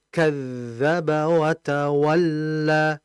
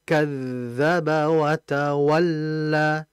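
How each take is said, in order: Both takes have the same delivery.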